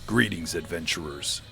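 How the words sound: It is said in a serious storytelling voice.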